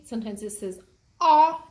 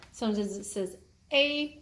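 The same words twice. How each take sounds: First: Louder, open "ah" sound; letter sound ah. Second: "a" said as a long ay; sounding out "a" as ay; letter sound a. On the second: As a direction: give the "a" its ay sound. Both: Shown as a demonstration. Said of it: "sometimes the A will say".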